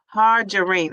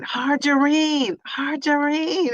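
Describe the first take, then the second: First: Said in the usual way. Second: Hargerine stretched out slowly on a higher pitch; careful sounding-out. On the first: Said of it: "she's pronouncing it for me". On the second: Shown as a demonstration. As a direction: try out the name Hargerine, drawn out and high. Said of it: "Am I saying it correct?".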